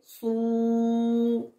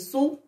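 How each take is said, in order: First: The vowel is held long. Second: The vowel is short. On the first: "Avec le waw" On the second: "avec la damma"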